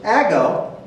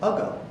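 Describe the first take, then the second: First: The first vowel is a short 'a' as in cat. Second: The first vowel is a weak 'uh' sound. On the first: "Try the short first" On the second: "Try the uh sound. When in doubt, give it the uh. Makes it ago"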